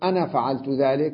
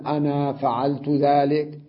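First: The final vowel of 'ana' is kept short. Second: The final vowel of 'ana' is drawn out long. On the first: "بدون ألف" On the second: "لا أقول"

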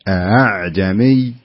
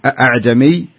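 First: The second glottal stop is weakened, almost a vowel. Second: The second glottal stop is fully and firmly pronounced. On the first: The speaker calls it right. "لا بد أن نسهل الثانية فنقرأها بهذا الشكل" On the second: The speaker calls it wrong. "ما يصلح نقول أعجمي، يعتبر خطأ"

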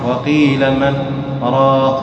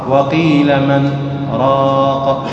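The two takes are said the same way.

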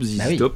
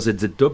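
First: The letters are said the English way. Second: The letters are said the French way. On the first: The speaker calls it right. "c'est à l'anglaise" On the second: The speaker calls it wrong. "et non pas ZZ Top"

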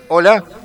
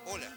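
First: The voice has a sweeping phaser effect. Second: The voice passes through a filter effect. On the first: "A ver el phaser" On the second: "Filtro moco. Mirá que bien el filtro moco, pero no me gusta tampoco"

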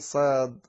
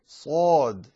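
First: The first consonant is light and thin. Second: The first consonant is heavy and full. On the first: The speaker calls it wrong. "لا تقول صاد" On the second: The speaker calls it right. "أن تجمع فمك فيخرج يخرج الحرف عاليا"

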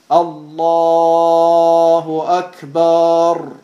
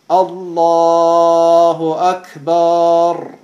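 First: The last vowel of Akbar is lengthened. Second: The last vowel of Akbar is lengthened.

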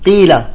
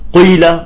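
First: The lips stay unrounded with a plain i vowel. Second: The lips are rounded, giving a u-like colour. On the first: The speaker calls it right. "لا" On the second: The speaker calls it wrong. "بيضم شفايفه وقت القاف، قيل، بطالعة مشوبة بالضمة"

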